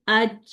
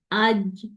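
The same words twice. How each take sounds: First: "آج" ending in an airy "ch"; hissy release on "آج"; fronted wrong jeem. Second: "آج" with a voiced j at the end; no hiss ending "آج"; correct jeem. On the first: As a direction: push the end of "آج" forward into "ch". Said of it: "اور اگلے پہ دیکھیے". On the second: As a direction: land "آج" on a solid j. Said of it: "جیم کی sound نکالتی ہوں". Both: Shown as a demonstration.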